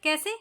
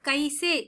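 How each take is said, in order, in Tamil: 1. முதல் உயிரெழுத்து சாதாரண 'e' ஒலி. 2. முதல் உயிரெழுத்து இணைந்த 'ai' ஒலி. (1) "பேச்சு வழக்கில் கேசே அப்படின்னு தான் சொல்லுவோம்" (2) "இங்க கைசே அப்படின்னு தான் எழுதிருப்பேன்"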